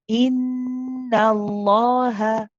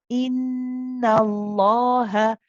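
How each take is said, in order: No difference in how they are said.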